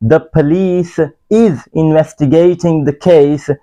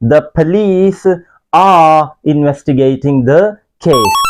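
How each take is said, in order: First: Slow model sentence; wrong example. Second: Slow model sentence, police lifted; correct example. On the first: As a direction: read the wrong example slowly. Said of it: "गलत है". (गलत वाक्य धीरे-धीरे) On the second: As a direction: read the fixed sentence slowly. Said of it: "इसको सही करते हैं". (सही वाक्य धीरे-धीरे) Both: Shown as a demonstration.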